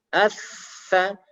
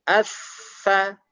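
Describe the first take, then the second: Both takes have the same delivery.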